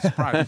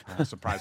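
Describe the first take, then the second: First: The repeat popped out loud and high; sarcastic drumroll surprise; mock fanfare. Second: Said in the usual way. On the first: Shown as a demonstration. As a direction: hit the second surprise hard for a joke.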